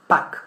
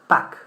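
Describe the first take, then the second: No difference in how they are said.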